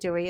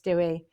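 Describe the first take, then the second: First: The name is said the English way, like Dewey. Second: The name is said the Welsh way, like Dewi. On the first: The speaker calls it wrong. "I keep calling him Dewey" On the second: The speaker calls it right. "it's Dewey"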